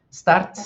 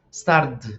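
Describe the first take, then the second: First: "start" higher and louder, ending in a sharp T. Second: "start" said "stard", falling; D ending. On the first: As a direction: punch "start" with a voiceless final T. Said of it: "un sonido de T". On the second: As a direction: end "start" on a voiced D. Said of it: "sonido de D". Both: Shown as a demonstration.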